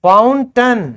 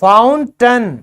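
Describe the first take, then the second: Both takes have the same delivery.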